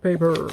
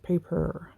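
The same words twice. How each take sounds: First: The word has a slight American accent. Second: The word has no American accent.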